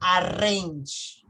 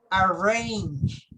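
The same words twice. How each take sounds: First: The R is a strong Spanish R. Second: The R is a soft English R. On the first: The speaker calls it wrong. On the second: The speaker calls it right. "Usually the R sound is in the back"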